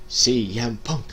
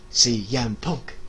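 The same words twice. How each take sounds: The two takes are said the same way.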